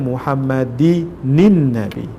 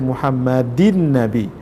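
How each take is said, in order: First: An extra 'nin' syllable links into the next word. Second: The word ends in 'in' with no extra syllable. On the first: The speaker calls it right. "Bacanya Allahumma salli ala sayyidina Muhammadinin Nabi" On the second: The speaker calls it wrong. "Jangan baca Muhammadin Nabi"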